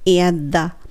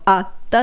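First: The first vowel is a stressed 'air' sound. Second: The first vowel is a short 'ah' sound. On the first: The speaker calls it right. "エアっていう音のエアをね強く言う" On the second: The speaker calls it wrong. "あって言ったら漢詞のあになるじゃないですか"

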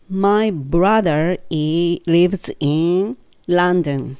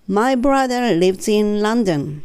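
First: The sentence is spoken slowly. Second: The sentence is spoken a little faster. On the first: "ゆっくり" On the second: "3 回目は、ちょっとだけ早め"

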